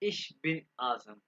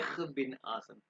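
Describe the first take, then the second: First: The first word ends in a soft 'sh' sound. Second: The first word ends in a harsh 'kh' sound. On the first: "सबसे आसान तरीका नेम बताने का" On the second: "जो रशियन है ना लोग, वो इसको कहते हैं इख बिन आजम"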